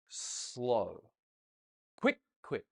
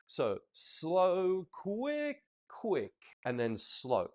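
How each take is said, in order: First: Wrong way demo. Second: "quick" counted high and drawn out, not rushed; the right count, "quick" long and lifted; counting demo. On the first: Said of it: "Looks wrong, doesn't it?". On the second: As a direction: count "So slow, quick, quick, and then slow" with a stretched high "quick". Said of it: "Now notice how I counted the quick". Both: Shown as a demonstration.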